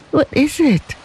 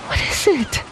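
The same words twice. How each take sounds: First: High, anxious repeat at full voice; mother pleading with the officers, anxious and quavering. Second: Soft, high, fearful question; mother frightened as officers hold her son, quavering softly. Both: A narrator's reading. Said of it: "quavered Lei Chu".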